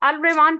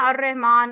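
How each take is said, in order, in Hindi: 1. article में l की आवाज़ साफ़ सुनाई देती है। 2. l दोहरी r वाली आवाज़ में मिल जाता है। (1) "नहीं" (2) "अब वो क्यों नहीं अल पढ़ रहे"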